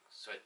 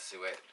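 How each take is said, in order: First: The word sounds like 'soot'. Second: The word sounds like 'suet'. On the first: "Some people pronounce it more like soot" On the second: "So I just call it suet"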